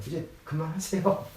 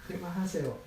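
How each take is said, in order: First: Mock-curt stop it with a rise at the end; curt refusal. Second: Softer, flat and falling stop it; quiet firm stop. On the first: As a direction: cut him off, a little testy. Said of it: "그냥 딱 잘린 거예요". (살짝 날 선 말투로 그만하라고) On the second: Retold or imitated. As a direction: close the subject quietly and firmly. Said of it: "였던 거예요". (조용히 단호하게 끊는 말투)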